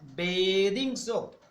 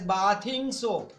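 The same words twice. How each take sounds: First: The first syllable sounds like the word bathe. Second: The first syllable sounds like the word bath. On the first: The speaker calls it right. "the soap that you use for your bath is known as bathing soap" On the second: The speaker calls it wrong. "many of you pronounce this word as bathing soap. Sorry, it is not bathing"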